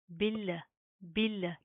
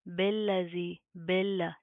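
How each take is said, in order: First: बिल्ला with a clear बि; correct pronunciation. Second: बिल्ला with short बे sound, not बि; wrong pronunciation. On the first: Teacher showing right बिल्ला to students. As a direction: say बिल्ला with proper बि sound. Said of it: "बा ज़ेर बी होता है". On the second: Teacher showing wrong बिल्ला to students. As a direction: mispronounce बिल्ला as बेल्ला. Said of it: "इसको आपने इस तरह नहीं पढ़ना". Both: Shown as a demonstration.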